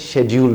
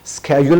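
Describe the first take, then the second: First: It is said the British way, starting with sh. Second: It is said the American way, starting with sk.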